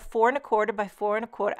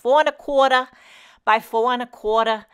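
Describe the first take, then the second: First: It is said in her ordinary accent. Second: It is said in a New York accent.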